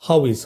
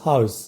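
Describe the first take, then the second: First: Both words are said fully and separately. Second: The two words merge into one short syllable.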